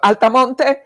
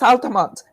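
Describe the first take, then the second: First: The final E is sounded as a vowel. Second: The final E is silent. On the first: The speaker calls it wrong. "for me, it's Altamonte because it has an E at the end" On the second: The speaker calls it right. "no, it's Altamont"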